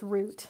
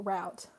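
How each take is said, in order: First: "route" said to rhyme with boot; pronunciation demo. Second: "route" said to rhyme with out; alternative pronunciation. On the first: Quiz taker reading out the choices, "route" with an oo vowel. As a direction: say "route" with a long oo. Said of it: "I say it like route". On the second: Quiz taker giving the other version, "route" with an ow sound. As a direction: say "route" with an ow vowel. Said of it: "Or for most people". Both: Shown as a demonstration.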